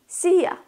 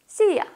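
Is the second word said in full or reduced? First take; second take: reduced; reduced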